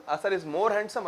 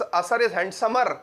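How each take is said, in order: First: "more handsome" said as the right comparative, a bit softer; corrected form. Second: "handsomer" said slowly as the wrong comparative; deliberately wrong form. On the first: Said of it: "नहीं". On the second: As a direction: offer "handsomer" as the mistaken form. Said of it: "नहीं, असर is handsome". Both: Shown as a demonstration.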